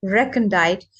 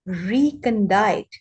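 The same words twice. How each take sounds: First: "recondite" said REK-on-dite, short E like "wreck"; corrected recondite. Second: "recondite" said REE-kon-dite, long EE first vowel; the slow first try, "recondite" with REE; reading it before the coach's correction. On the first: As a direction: copy the coach: REK-on-dite. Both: Shown as a demonstration.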